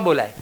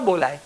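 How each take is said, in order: No difference in how they are said.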